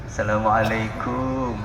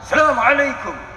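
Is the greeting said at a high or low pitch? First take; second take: low; high. First: It is said softly at a low pitch. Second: It is said loudly at a high pitch. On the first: A student greets the teacher humbly. "membungkukkan badan" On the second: Everyone greets as equals, whatever their rank. "Pada salam dengan nada tinggi"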